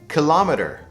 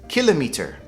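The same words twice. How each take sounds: First: It is said with an American accent. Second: It is said with a British accent. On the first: "In the U S, it's pronounced kilometer" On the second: "in the U K, it's pronounced kilometer"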